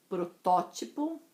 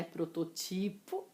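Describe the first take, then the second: First: "protótipo" as pro-TÓ-ti-po; "protótipo" with stressed, open TÓ; stress on second syllable. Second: "prototipo" as pro-to-TI-po; "prototipo" mis-stressed on a long TI; wrong penultimate stress. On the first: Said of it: "ó, acento". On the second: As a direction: shift the weight of "prototipo" onto TI. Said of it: "não é prototipo". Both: Shown as a demonstration.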